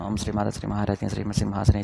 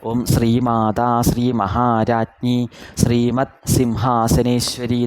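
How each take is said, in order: First: Syllables are clipped and word endings dropped. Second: Every syllable is voiced clearly and completely. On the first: The speaker calls it wrong. "അങ്ങനെ ജപിക്കരുത്" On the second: The speaker calls it right. "ഓരോ അക്ഷരത്തിലും ശബ്ദം എത്തിച്ചിട്ട്"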